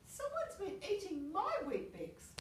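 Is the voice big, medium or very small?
medium. It is said in a medium-sized voice.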